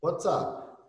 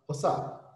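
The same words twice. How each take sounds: First: "What's up" with the t sounded; complete, careful "What's up"; full pronunciation. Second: "What's up" without the t, "wassap"; reduced pronunciation. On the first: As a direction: keep the "ts" in "What's up". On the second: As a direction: drop the t in "What's up". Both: Shown as a demonstration. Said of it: "Pode fazer um legalzinho assim".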